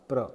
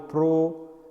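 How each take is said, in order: First: The syllable has a short 'a' vowel. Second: The syllable has a full 'o' vowel. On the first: The speaker calls it right. "instead of pro this is pronounced pra" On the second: The speaker calls it wrong. "We cannot pronounce it according to the alphabets P R O"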